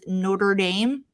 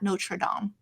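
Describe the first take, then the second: First: It is said with a Midwest American accent. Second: It is said without a Midwest American accent.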